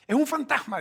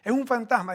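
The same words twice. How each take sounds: First: High, loud frightened cry; scared cry. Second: Loud, a touch less high than the first cry; frightened shout. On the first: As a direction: cry out in terror at a ghost. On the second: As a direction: call out in fear, somewhat reined in. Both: Acted. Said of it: "gritaron de miedo".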